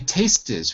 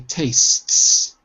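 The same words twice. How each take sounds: First: The word is said with two syllables. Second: The word is said with one syllable. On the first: The speaker calls it wrong. "We don't say tastes" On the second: The speaker calls it right. "we say tastes"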